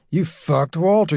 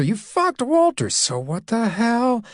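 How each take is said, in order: First: Said in the usual way. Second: Much higher, defiant woman throwing it back; defiant retort. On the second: Acted. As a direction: fling the words back at him.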